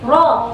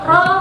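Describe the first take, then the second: First: The r sound is thick and heavy. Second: The r sound is thin and light. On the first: The speaker calls it right. "kalau ro suara ke atas" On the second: The speaker calls it wrong. "berarti dia masih tarkik ... sifatnya masih kurang tebal"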